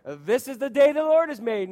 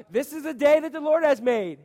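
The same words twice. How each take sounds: First: Louder, higher call to the congregation; greeting call. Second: Higher, louder call for more energy; bigger greeting call. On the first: Preacher leads church greeting, louder and higher. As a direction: call it out for a response. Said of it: "churches where they greet you and say". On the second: Preacher repeats greeting after lame response, louder. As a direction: push it out with more spirit. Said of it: "you're pretty lame at this". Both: Shown as a demonstration.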